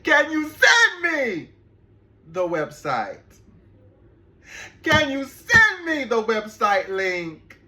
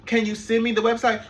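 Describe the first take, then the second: First: Slow, louder, higher, spelling out each word; exasperated repeat. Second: Said in the usual way. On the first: Retold or imitated. Asking the client again for his website, slow and exasperated. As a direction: repeat it slowly like he didn't hear. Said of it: "repeated request, slower". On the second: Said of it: "repeated request".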